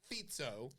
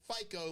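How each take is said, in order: First: It is said in the Slovak way. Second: It is said like the credit-score brand name. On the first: The speaker calls it right. "That's how you pronounce it" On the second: The speaker calls it wrong. "It's not FICO like your credit score"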